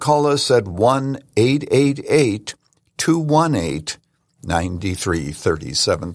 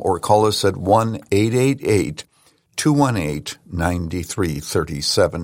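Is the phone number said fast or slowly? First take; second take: slowly; fast. First: The number is said slowly. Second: The number is said fast.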